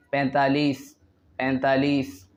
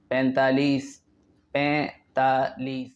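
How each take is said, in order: Both takes have the same delivery.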